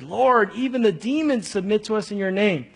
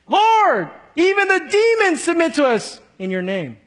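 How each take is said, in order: First: It is said in a plain, neutral tone. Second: It is said in an excited, boastful tone.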